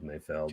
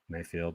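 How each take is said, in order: First: The second syllable has a short 'eh' vowel. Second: The second syllable has a long 'ee' vowel. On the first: The speaker calls it right. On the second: The speaker calls it wrong.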